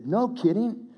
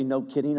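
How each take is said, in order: First: High-pitched, incredulous retold exclamation; amazed biker reaction. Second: Said in the usual way. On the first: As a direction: mimic his amazement, pitched well up. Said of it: "he goes like this". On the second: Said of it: "he didn't really say".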